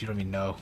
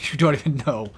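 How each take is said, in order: First: Quiet, low mutter. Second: Laughing through the words. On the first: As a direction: mutter it under your breath. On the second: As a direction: laugh as you say it. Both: Shown as a demonstration.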